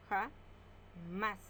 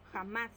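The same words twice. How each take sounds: First: Ja-más drawn out into two slow beats; syllable by syllable. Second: Said in the usual way. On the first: Shown as a demonstration. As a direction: split Ja-más slowly. (Ja-más separada en sílabas, lento) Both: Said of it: "Separamos en sílaba".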